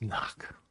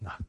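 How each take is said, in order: First: A breathless whisper with no voice; whispered inner voice. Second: Said in the usual way. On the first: Retold or imitated. A little inner voice prompting him, whispered. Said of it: "So a little voice says". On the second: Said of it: "So I went".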